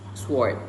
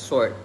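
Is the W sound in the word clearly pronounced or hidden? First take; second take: clear; hidden. First: The W sound is clearly and strongly pronounced. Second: The W sound is subdued and almost hidden. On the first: "in Singaporean English, they would pronounce it as sword. Sword. Like the W is very pronounced" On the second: "in the standard English. It's pronounced as sword. The W is a bit subdued and kind of hidden"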